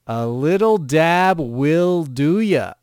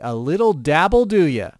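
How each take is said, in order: First: The words are said slowly and clearly separated. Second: The words are said fast and run together.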